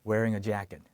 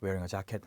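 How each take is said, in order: First: Jacket is said with a smooth native English pronunciation. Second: Jacket is said with a flat Korean-style pronunciation. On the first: The speaker calls it right. "원어민스럽게 wearing a jacket" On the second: The speaker calls it wrong. "자켓 나도 모르게 wearing a jacket 하실 수 있는데"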